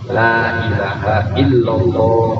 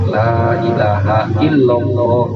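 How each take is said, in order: No difference in how they are said.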